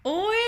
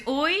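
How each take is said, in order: First: High, drawn-out questioning echo; clueless echo. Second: Said in the usual way. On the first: Retold or imitated. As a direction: parrot it back with a rising, baffled lilt.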